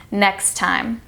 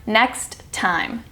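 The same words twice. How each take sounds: First: Next time with one shared T, nextime; single T linkage. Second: Next time with each T said, slow and apart; two separate Ts. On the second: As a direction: say next, stop, then time. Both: Shown as a demonstration. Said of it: "not next time".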